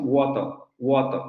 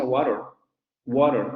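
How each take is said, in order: First: Water said British, "woto" with dropped r; British pronunciation. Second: Water said American, flapped "woro"; American pronunciation. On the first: Teacher showing British water to Spanish-speaking students. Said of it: "lo pronuncian así los británicos". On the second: Teacher showing American water to Spanish-speaking students. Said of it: "en inglés norteamericano esa palabra se pronuncia". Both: Shown as a demonstration.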